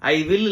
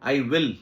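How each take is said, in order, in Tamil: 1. 'will' v ஒலியுடன் தொடங்கும், உதட்டைக் கடித்து. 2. 'will' w ஒலியுடன் தொடங்கும், உதடுகளை வட்டமாக்கி. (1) "இல்ல sir" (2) "you need to kiss both the lips"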